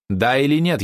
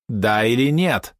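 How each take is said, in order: First: Raised, higher demanding question; louder question. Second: Slow, drawn-out, higher question; insistent demand. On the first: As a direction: press for an answer, voice lifted. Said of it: "ещё громче спросила Мисс". (требовательно, повышенным голосом) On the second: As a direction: stretch each word to demand an answer. Impatient repeat of the demand. (медленно, с нажимом, требовательно) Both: A narrator's reading.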